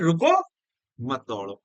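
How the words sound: The pause comes after the first word.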